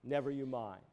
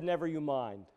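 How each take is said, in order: First: Much lower and softer, almost under the breath; the Lord's words repeated as a dying hush; softer fading echo. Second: A soft, low, calm voicing of the Lord; quiet divine reassurance; gentle reassurance. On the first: Retold or imitated. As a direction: let the repeat fade to a hush. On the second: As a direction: reassure him quietly, lower and softer. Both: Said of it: "The Lord said".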